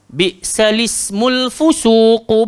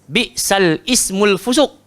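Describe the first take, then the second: First: The word 'ismul' is joined to the preceding word. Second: The word 'ismul' is said separately, with its vowel. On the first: The speaker calls it right. "Dia kena bi'salis" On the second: The speaker calls it wrong. "sepatutnya dia akan jadi bi'sal ismul fusuk"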